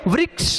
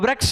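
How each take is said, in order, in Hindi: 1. r के बाद 'i' स्वर है। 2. r के बाद 'a' स्वर है। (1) "वृक्ष बोले" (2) "इसमें रह नहीं री है, तो वृक्ष नहीं बोले"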